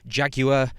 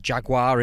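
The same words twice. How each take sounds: First: The word is said in a non-American way. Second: The word is said in an American way.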